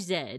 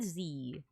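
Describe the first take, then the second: First: The letter is said the Canadian way, zed. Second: The letter is said the American way, zee.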